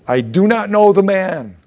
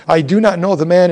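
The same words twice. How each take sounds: First: Heavy denial with know hit hard; sworn denial. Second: Furious denial with not hit hard; cursing denial. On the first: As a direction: stress on know, louder and higher, sentence falls. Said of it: "he denied with an oath". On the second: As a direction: stress on not, louder and higher. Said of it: "he began to curse and swear". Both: Acted.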